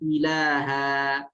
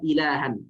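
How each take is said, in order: First: The word ends on a long a vowel. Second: The word ends with an n sound. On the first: The reader stops on this word. "ketika waqaf kita membaca ilaha" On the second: The reader joins it to the next word. "ketika kita sambung dibaca ilahan"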